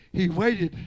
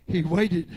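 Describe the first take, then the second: No difference in how they are said.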